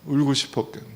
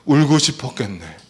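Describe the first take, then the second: First: Quieter "울고 싶었겠네", "울고" leaned on; tender repeat of "울고 싶었겠네"; softly repeated. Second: Gentle "울고 싶었겠네" with stress on "울고"; empathetic phrase demo. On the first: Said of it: "너무 좋아요". (조용히 다정하게 "울고 싶었겠네") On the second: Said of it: "따라해보세요". (위로하듯 "울고 싶었겠네") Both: Shown as a demonstration.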